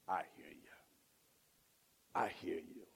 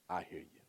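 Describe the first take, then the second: First: Low, soft, reassuring; tender God voice. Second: Low, quiet, heartfelt; tender and soft. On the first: Acted. God to the sinner, low and tender. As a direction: speak like a gentle father. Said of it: "God says". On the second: Retold or imitated. God to struggling believer, tender and soft. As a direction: say it gently, really meaning it. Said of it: "I think he hear you like".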